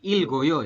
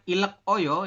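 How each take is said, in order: First: The final consonant links into the next syllable. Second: The final consonant stays separate before a break. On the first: The speaker calls it right. "dibacanya Ilgoyo" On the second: The speaker calls it wrong. "bukan ilek oyo"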